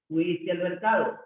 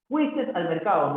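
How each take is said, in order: First: Said in the usual way. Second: Fuiste said as fuistes, extra final s; wrong form shown. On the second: Shown as a demonstration. Teacher shows students the incorrect fuistes ending. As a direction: model the error, Fuiste ending in -istes. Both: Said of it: "no, fuiste al mercado".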